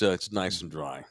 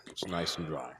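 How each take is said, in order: First: Said in the usual way. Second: Quiet satisfied echo; soft repeat. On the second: Shown as a demonstration. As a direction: repeat it softly to yourself.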